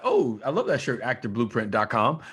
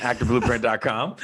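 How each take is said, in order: First: Bright, excited plug; excited street compliment. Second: Actor blueprint dot com, said clearly with a lift on blueprint; clear announcement. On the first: Acted. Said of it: "if I'm walking up to you on the street and I'm like". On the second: Shown as a demonstration. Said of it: "We'll say it again for them".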